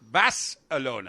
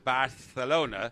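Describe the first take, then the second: First: The c is a clear s sound. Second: The c is not a clear s sound. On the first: The speaker calls it right. "like B A S S. Bas" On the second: The speaker calls it wrong. "my pronunciation of uh, Barcelona as Barcelona is wrong"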